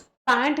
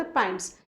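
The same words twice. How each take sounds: First: Said in the usual way. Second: "पैंट्स" with a final s, lower and softer; plural ending sounded. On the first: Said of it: "नहीं बोलते". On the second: Shown as a demonstration. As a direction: give "पैंट्स" as the correction, ending in ts. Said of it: "पैंट नहीं बोलते".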